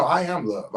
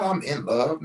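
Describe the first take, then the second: First: "am" said in full and punched; stress on AM. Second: The phrase to reject, weight on "in"; stress on IN. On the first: Correcting the listener to "I am love", stressing AM. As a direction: correct it firmly, weight on "am". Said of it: "No, I am love". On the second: Rejecting "I'm in love" as a misreading, stressing IN. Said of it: "Not "I'm in love." No, I am love". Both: Shown as a demonstration.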